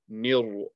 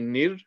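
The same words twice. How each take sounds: First: The r sound is heavy and full. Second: The r sound is light and thin. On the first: The speaker calls it wrong. "you're making the ra heavy" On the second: The speaker calls it right. "the ra will be light"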